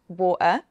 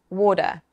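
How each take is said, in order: First: The T is replaced by a glottal stop. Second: The T sounds like a quick, soft D. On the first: "a glottal stop, which is the uh sound" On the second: "something called a flap, which can sound like a small D"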